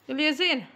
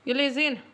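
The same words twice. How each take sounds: The two takes are said the same way.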